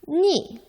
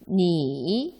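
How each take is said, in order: First: The pitch falls sharply from high to low. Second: The pitch dips low, then rises. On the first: "사성으로는" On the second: "삼성으로는"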